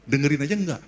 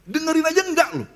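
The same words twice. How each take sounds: First: Said in the usual way. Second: "Dengerin aja enggak" pitched high, falling at the end; emphatic repeat. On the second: Real, not acted. (diulang dengan nada tinggi penuh penekanan)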